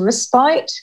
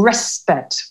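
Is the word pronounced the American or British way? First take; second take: British; American. First: The word is said with a British pronunciation. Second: The word is said with an American pronunciation.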